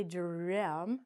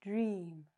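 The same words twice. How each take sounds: First: "dream" with the vowel split into two sounds; slow "dream" saying both vowels; wrong pronunciation. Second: "dream" with one long ee sound; "dream" soft and clean, long ee; correct pronunciation. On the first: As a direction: say "dream" as deh-am. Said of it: "we don't say". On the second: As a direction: say "dream" as one syllable, drim. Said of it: "we say". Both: Shown as a demonstration.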